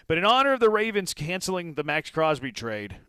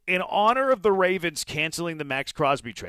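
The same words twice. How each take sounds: First: Said in the usual way. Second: Playful mock Italian accent, higher and louder. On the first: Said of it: "I don't know why I'm talking like an Italian". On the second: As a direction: ham up an Italian accent for the trade joke. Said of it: "I'm talking like an Italian".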